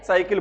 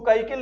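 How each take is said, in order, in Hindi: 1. शब्द s की आवाज़ से शुरू होता है। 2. शब्द k की आवाज़ से शुरू होता है। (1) "साइकिल बोलेंगे" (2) "इसको काइकिल नहीं बोलेंगे"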